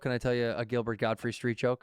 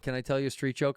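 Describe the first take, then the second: First: Squinting, nasal-free raspy comic yell; Gilbert Gottfried voice. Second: Said in the usual way. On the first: Shown as a demonstration.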